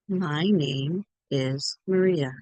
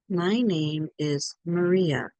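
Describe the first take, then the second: First: Each word is said clearly and separately. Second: The same.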